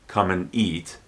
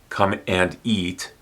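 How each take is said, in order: First: The word 'and' is reduced to an n. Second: The word 'and' is said in full.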